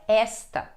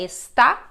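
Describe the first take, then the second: First: The stress is on the first syllable. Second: The stress is on the last syllable. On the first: It is the demonstrative 'this'. "mudou a sílaba forte" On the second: It is the verb 'is'. "mudou a sílaba forte"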